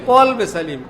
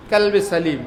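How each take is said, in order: First: The right way, কলবে said from the throat; correct pronunciation. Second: কালবে with a plain k and a long a; the mistaken কালবে, as the book spells it; wrong pronunciation. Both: Shown as a demonstration. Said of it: "কালবে সালিম হবে না কলবে সালিম?".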